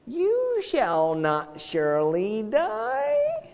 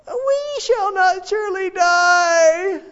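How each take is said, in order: First: Much higher, slow, drawn-out serpent voice; Satan tempting Eve. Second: Very high, slow shouted echo of the lie; Habakkuk shouting. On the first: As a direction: drawl the lie sweetly. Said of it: "He said to Eve". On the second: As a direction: shout it up at God. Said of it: "Habakkuk is telling God this". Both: Retold or imitated.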